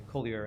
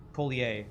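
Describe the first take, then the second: First: Said in the usual way. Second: Collier ending in "-ee-ay"; French-style ending. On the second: Shown as a demonstration. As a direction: say Collier as "KOH-lee-ay". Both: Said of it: "however you say his name".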